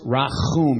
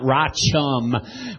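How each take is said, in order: First: The ch is a throaty sound, not English ch. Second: The ch sounds like English ch in chum. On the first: The speaker calls it right. "It's pronounced rachum" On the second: The speaker calls it wrong. "not rachum. We don't say chum in Hebrew"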